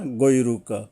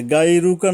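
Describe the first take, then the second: First: গৈরুকা with a thick, heavy first sound; heavy goiruka. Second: Said in the usual way. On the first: Shown as a demonstration. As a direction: say গৈরুকা full and heavy, not গাইরুকা. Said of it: "শক্তভাবে মোটা করে আদায় করতে হবে". (গৈরুকা মোটা করে উচ্চারণ) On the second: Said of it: "গাইরুকা না বললে".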